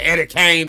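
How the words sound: The name is drawled so King sounds like Kane. This is how the name was heard all along.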